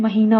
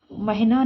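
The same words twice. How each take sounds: First: महीना with long "hee"; correct pronunciation. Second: महीना with short "hi"; wrong pronunciation. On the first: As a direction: stretch the ee of महीना. (महीना में "ही" लंबा बोलें) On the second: (महीना में "हि" छोटा बोलें) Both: Shown as a demonstration. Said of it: "महीना होता है".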